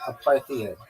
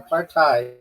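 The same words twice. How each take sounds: First: The last syllable sounds like "id". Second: The last syllable sounds like "hate". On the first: The speaker calls it wrong. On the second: The speaker calls it right.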